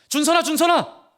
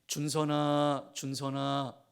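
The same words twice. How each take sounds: First: The name is called in a hurried, urgent voice. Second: The name is called in a calm, relaxed voice. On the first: Something must be stopped right now. The speaker calls it right. "다급한" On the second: There is no hurry. The speaker calls it wrong. "이렇게 말하지 않아요"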